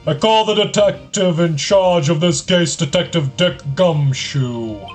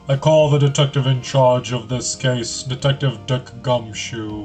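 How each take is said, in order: First: The voice is louder, with more volume. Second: The voice is quieter, with less volume. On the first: "There we go" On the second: "I'm gonna go with a different voice"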